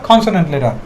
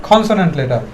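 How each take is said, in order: The two takes are said the same way.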